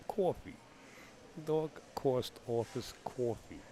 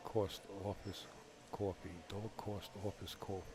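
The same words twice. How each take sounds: First: Exaggerated, slow Bronx vowels; Bronx accent. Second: Bronx accent. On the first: Commentator hamming up his word list, thick Bronx accent. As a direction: stretch every vowel in broad Bronx. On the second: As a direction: quietly savor each word in thick Bronx. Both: Shown as a demonstration. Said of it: "That's a certified Bronx accent".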